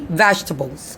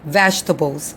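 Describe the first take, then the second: Both takes have the same delivery.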